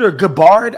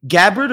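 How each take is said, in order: First: Gabbard said as guh-BARD; second-syllable stress. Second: Gabbard said as GAB-erd; first-syllable stress. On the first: Host trying the other pronunciation, Gabbard stressed on the second syllable. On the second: Host unsure of a surname, Gabbard stressed on the first syllable. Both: Shown as a demonstration. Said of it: "I don't know how to say her name".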